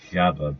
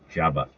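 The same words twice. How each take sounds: First: "Jabba" said with zh in place of j; demonstrated pronunciation. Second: "Jabba" starting with a hard j sound; "Jabba" said with a firm j, not zh; corrected pronunciation. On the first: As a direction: open "Jabba" on the s of "treasure". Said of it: "pronounced as Jabba". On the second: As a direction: open "Jabba" like the word "job". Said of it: "but it's pronounced as Jabba". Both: Shown as a demonstration.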